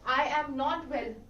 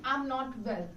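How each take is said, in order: First: I and am are said as separate words. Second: I and am merge into one word.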